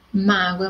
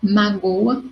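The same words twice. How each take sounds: First: Mágoa with the first syllable MÁ strong; stress on MÁ. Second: Magoa slowed, with GO in the middle stressed. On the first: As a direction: punch MÁ at the start of mágoa. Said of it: "A mudança do significado das palavras". (mágoa com tônica no MÁ) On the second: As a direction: stretch GO in magoa to set it apart. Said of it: "magoa outra". (magoa com tônica no GO) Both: Shown as a demonstration.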